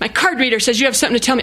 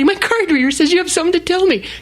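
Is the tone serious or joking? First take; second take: serious; joking. First: It is said in a serious tone. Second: It is said in a joking tone.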